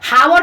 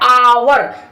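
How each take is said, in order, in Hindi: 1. शब्द की शुरुआत में साफ़ h ध्वनि सुनाई देती है। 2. शब्द स्वर से शुरू होता है, कोई h ध्वनि नहीं। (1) "हावर नहीं पढ़ते" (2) "आवर पढ़ते हैं"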